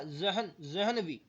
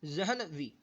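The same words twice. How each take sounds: First: जहन, जहनवी drawn out syllable by syllable, very slow; slow spelled-out pronunciation. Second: Said in the usual way. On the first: Shown as a demonstration. Teacher to students, spelling out जहनवी very slowly. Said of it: "देखो क्या लिखा". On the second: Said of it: "बोलिए क्या करा".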